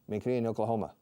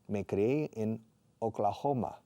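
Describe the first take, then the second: First: Oklahoma is said with English sounds. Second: Oklahoma is said with Spanish sounds. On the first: The speaker calls it wrong. "I never say" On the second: The speaker calls it right. "I always Spanishize the proper nouns"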